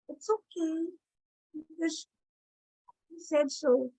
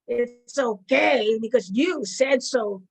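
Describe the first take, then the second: First: It is said in a wounded, self-pitying tone. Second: It is said in a sarcastic, mocking tone. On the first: The speaker feels hurt and put upon. "Or the victim" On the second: The speaker does not really think it is okay. "Or it can be sarcastic"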